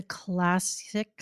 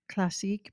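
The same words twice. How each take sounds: First: Said in the usual way. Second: Playful French pronunciation of "classique"; mock French. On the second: Introducing a classic spark to co-host, mock French. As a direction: say "classique" French-style, stress on the last syllable.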